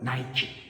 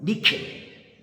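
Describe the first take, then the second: First: It is said as nye-kee, with an eye vowel. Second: It is said as nee-keh, with an ee vowel. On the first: "영어 발음으로는" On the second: "그리스 발음으로는"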